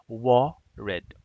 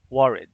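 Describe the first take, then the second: First: "worried" broken into two beats, wor, ried; "worried" with a clear gap before "ried"; split into syllables. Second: Said in the usual way. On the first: Shown as a demonstration. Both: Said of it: "So this is two syllables".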